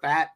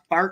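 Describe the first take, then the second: First: The name is said without an R sound. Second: The name is said with an R sound. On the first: "I don't see an R in it" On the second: "Fart or Fat, however you want to pronounce it"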